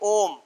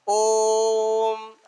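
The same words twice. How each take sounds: First: The vowel is short and not prolonged. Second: The vowel is held about three times longer. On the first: "यहाँ पर प्लुत नहीं है तो ऐसे बोल देंगे" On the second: "वहां जब बोलेंगे तो ओम ऐसा बोलेंगे"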